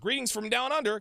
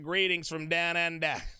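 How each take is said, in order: First: It is said in his ordinary accent. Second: It is said in an Australian accent.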